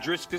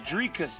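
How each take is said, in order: First: The name has an s sound before k. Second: The name has no s sound before k. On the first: The speaker calls it wrong. "not Driscus" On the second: The speaker calls it right. "it's Dricus"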